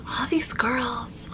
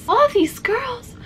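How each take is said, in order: First: Slow, soft whispered Crystal attempt; Crystal impression. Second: High, slow Crystal voice attempt; Crystal impression. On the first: Failing to imitate Crystal, slow whispered try. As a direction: breathe "All these girls" slowly as a whisper. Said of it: "I can't do it". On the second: Trying again to nail Crystal's voice, higher and slow. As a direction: slowly stretch "All these girls" in a much higher voice. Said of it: "how do you do a proper Crystal". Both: Shown as a demonstration.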